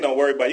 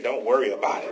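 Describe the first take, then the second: First: It is said in a flat, neutral way. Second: It is said with a sassy, emphatic attitude. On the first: The speaker calls it wrong. "You can't just say" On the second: The speaker calls it right. "You got to say it with an attitude"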